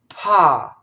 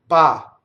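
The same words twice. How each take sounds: First: An English P with a puff of air. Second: An Italian P, compact and without air. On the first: "if I say pa in English" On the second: "pa in Italian"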